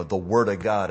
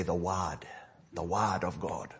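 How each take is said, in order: First: "word" with a full American r; American pronunciation. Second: "wad" said for word, no r, open "ah"; Kenyan pronunciation. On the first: Shown as a demonstration. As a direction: say "word" with the r sounded clearly. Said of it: "We say". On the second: Retold or imitated. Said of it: "and they say".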